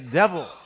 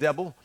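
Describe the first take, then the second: First: The middle consonant is a v sound. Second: The middle consonant is a b sound. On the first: The person feels victorious. The speaker calls it right. "There's a V in devil" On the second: The person feels defeated. The speaker calls it wrong. "They put a B in it"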